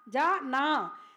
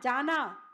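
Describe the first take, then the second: First: It is said as two parts with a break. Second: It is said as one word, without a break.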